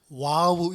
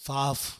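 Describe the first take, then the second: First: The word begins with a W sound. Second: The word begins with a V sound. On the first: The speaker calls it wrong. "W라고 해서 그냥 와우 이렇게 읽는 사람도 있는데" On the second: The speaker calls it right. "실제 발음은 좀 V랑 비슷합니다. 그래서 바프 이렇게 읽는데"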